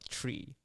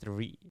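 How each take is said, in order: First: The word starts with a hard 't' sound. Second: The word starts with a soft 'th' sound. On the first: The speaker calls it wrong. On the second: The speaker calls it right.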